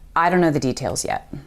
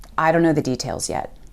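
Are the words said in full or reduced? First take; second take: reduced; reduced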